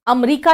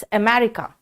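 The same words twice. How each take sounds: First: अमेरिका as Hindi amrika; अमेरिका clipped the Hindi way; Hindi pronunciation. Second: अमेरिका as English America, amerika; English pronunciation. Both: Shown as a demonstration. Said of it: "अमेरिका नहीं कहते".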